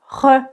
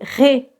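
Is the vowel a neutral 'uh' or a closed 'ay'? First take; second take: neutral 'uh'; closed 'ay'. First: The vowel is a neutral 'uh' sound. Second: The vowel is a closed 'ay' sound. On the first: The speaker calls it wrong. "S'il n'y a pas d'accent, je vais prononcer re" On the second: The speaker calls it right. "Mais ici, c'est ré"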